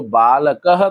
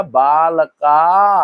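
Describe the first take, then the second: First: बालकः as "baa-la-ka-ha" with a short "ka"; short-vowel singular. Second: बालका very slowly with a long held "kaa"; long-vowel plural. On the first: Teacher recalling the earlier singular बालकः, short-vowel ending. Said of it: "पहले जो बालकः था". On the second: Teacher contrasting the new plural बालका, long held ending. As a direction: stretch the last vowel of बालका. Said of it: "का पे डंडा आ गया". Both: Shown as a demonstration.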